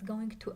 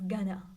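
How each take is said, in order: First: Both words are said fully and separately. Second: The words are reduced and blended together. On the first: "We sometimes pronounce going to as gonna" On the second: "We sometimes pronounce going to as gonna"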